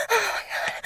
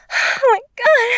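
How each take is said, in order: First: High but much softer, breathy gasp. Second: Much higher, full voice cry; high loud cry. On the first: Gasping to her partner, soft high exclamation. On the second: Crying out to her partner, loud high exclamation. Repeated exclamation, louder take. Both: Acted.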